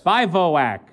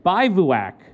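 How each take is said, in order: First: "Bivouac" said as BY-voh-ack; "Bivouac" with middle vowel as "voh"; long O. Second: "Bivouac" said as BY-voo-ack; "Bivouac" with middle vowel as "voo"; mistaken short vowel. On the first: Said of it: "like O?". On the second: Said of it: "A long line over the vowel". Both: Shown as a demonstration.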